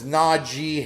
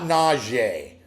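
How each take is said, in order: First: The name is said plainly, as it is spelled. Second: The name is said with a fancy French-style sound. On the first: The speaker calls it right. "exactly how it's spelled" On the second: The speaker calls it wrong. "They're trying to be French or trying to be Creole"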